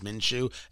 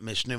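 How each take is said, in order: First: The name is said as 'Minshew'. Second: The name is said as 'Mishnu'. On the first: The speaker calls it right. "It's Minshew" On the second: The speaker calls it wrong. "It's not Mishnu"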